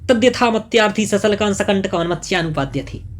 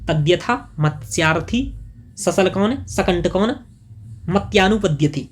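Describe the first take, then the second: First: It is said at normal speed. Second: It is said slowly.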